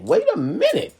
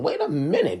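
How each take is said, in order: First: "Wait" jumps much higher and louder with a rising end; rising exclamation. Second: Said in the usual way. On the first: Retold or imitated. Telling the couple to hold on, loud rising exclamation. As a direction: hit "Wait" high and loud, as if stopping everything. Repeats the line, rising to an outburst.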